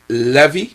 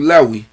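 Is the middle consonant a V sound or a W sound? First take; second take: V sound; W sound. First: The middle consonant is a V sound. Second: The middle consonant is a W sound. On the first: This is how many people commonly say it. "we say Levi with a with a with a V sound" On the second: This is how it reads in Hebrew. "from Hebrew Lewi ... It has a, a wow"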